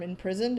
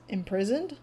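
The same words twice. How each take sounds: First: Said in the usual way. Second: Mildly puzzled questioning rise; confused. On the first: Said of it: "the term imprisoned". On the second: Retold or imitated. Telemachus caught by the term, mildly confused. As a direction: echo the word as a baffled question. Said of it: "like, confused".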